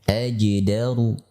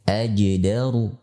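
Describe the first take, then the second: No difference in how they are said.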